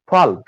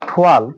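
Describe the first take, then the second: No difference in how they are said.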